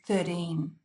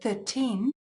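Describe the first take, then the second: First: The middle consonant sounds like a D. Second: The middle consonant is a clear T.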